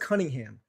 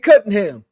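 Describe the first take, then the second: First: The name has its standard 'Cunningham' sound. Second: The name sounds like 'cutting ham'. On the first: It is the normal way of saying it. The speaker calls it right. "never says Cunningham" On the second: It imitates another person's way of saying it. The speaker calls it wrong. "He always says Cade Cunningham"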